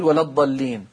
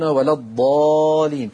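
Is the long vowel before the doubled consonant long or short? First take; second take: short; long. First: The long vowel is dropped before the doubled consonant. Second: The long vowel is held before the doubled consonant. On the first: The speaker calls it wrong. "عشان ما حدش يقول" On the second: The speaker calls it right. "فحرصنا على عدم الزوال يقولون"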